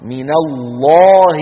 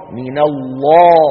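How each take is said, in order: First: "الله" chanted very slowly and louder, lam and alif full and dark; sung, intone "الله" slowly and strongly with a heavy lam; sung, heavy Allah recitation. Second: "الله" chanted again slowly and louder, with dark lam; sung, repeat "الله" slowly and strongly, heavy lam; sung, heavy Allah repeated. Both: Shown as a demonstration. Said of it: "لامه مفخمة".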